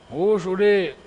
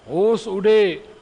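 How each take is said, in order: Both takes have the same delivery.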